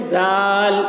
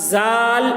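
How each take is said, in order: No difference in how they are said.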